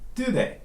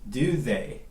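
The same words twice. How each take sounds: First: The words are shortened and run together. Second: Both words are said fully and separately.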